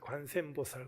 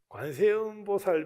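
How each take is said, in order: First: The name is contracted, in a leaky, old voice. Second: The name is said in full, every syllable. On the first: Elderly rural women say it this way. "좀 새는 목소리 비슷하게" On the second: This is how it should be said. "관세음보살 뭐 이렇게 좀 표현을 해야 되는데"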